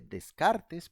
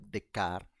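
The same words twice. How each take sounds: First: Every letter is sounded, including the final s. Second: The final letters are silent, French style. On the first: "se escribe Descartes" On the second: "pero se pronuncia Descartes"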